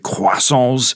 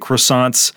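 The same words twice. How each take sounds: First: The word is said with a French pronunciation. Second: The word is said with an American pronunciation. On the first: "If you want that real French pronunciation, you could say croissants" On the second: "But in American English, we just say croissants"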